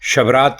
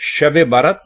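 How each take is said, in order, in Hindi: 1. इसे एक छोटे शब्द की तरह कहा जाता है, shabrat। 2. इसे दो शब्दों की तरह कहा जाता है, shab barat। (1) "पहली बात तो यह कि शबरात की रात कहना ही गलत है" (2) "शब बारात है असल में लफ्ज"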